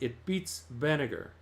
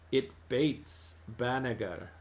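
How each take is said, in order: First: It is said with the standard vowel. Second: It is said with the local dialect vowel.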